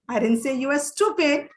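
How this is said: The word "stupid" carries the strongest stress. The focus is on the quality, not the person. "you are emphasizing that the person is stupid"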